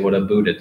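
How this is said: It is said with a Canadian "aboot" vowel.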